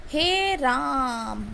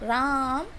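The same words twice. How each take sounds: First: "हे राम" with the आ in राम drawn out to triple length, slow; "हे राम" called out with a long pluta आ; prolonged vowel. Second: Said in the usual way. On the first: Shown as a demonstration. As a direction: stretch the vowel of "राम" as if calling someone from afar. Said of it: "जैसे". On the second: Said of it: "राम में जो हम बोल रहे हैं".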